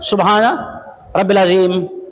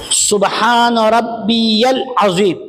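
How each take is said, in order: First: The middle word is clipped short. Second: The middle word is said in full. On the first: The speaker calls it wrong. "ज्यादा पढ़ते पढ़ते शॉर्ट हो गया।" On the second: The speaker calls it right. "ये सही है।"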